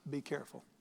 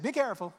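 First: It is said in a firm, serious tone. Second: It is said in a light, casual tone.

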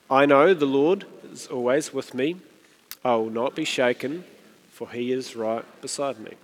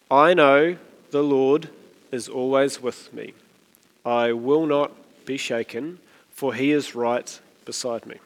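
First: It is read at a normal pace. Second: It is read slightly more slowly.

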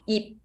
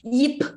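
First: The final p is soft and unreleased. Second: The final p is released loudly. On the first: The speaker calls it right. "Just yip, yip, close your mouth" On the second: The speaker calls it wrong. "They will always pronounce the P really loud"

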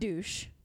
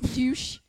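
First: It is said with a plain American accent. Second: It is said with a put-on French accent.

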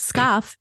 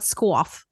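First: It is said with a plain k sound. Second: It is said with a kw sound. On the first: The speaker calls it right. "it's scoff" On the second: The speaker calls it wrong. "not squoff"

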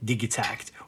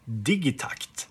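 First: It is pronounced the English way. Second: It is pronounced the Swedish way.

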